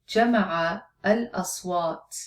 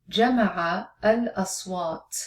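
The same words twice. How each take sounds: Both takes have the same delivery.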